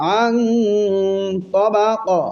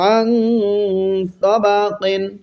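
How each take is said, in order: First: The last word is cut short after q. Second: The last word ends with a full -qin.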